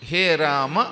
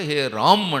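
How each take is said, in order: First: The name ends with a final vowel sound. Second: The name ends on a bare consonant. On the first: This is the Sanskrit vocative form. "హే రామ అనేది సంబోధన అంటే సంస్కృతంలో" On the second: This is the Hindi way of saying it. "అజంతంగా అచ్చుతో అంతమయ్యేలా పలకుండా"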